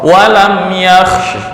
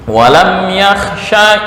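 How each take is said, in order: First: The last word ends on a bare consonant. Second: The last word ends with a short a vowel. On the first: The reciter stops on this word. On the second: The reciter continues into the next word.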